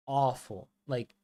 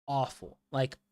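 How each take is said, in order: Both takes have the same delivery.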